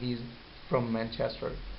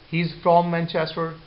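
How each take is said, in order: First: The word 'from' has a weak, reduced vowel. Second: The word 'from' has its full vowel.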